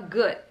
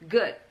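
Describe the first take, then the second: No difference in how they are said.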